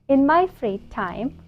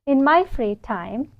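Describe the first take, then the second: No difference in how they are said.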